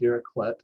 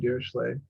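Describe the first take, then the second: First: The name is given a German pronunciation. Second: The name is given a French pronunciation. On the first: "The Germans call him Dirichlet" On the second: "The French call him Dirichlet"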